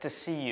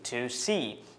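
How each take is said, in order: First: It is said quickly at normal speed. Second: It is said slowly and carefully. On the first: "speed normalnya" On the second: "kalau misalnya dibaca pelan atau melambat"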